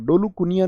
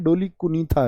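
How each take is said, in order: First: The second word is said with a 'y' sound. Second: The second word is said with a 'th' sound. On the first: The speaker calls it wrong. "नहीं है" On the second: The speaker calls it right. "है भैया"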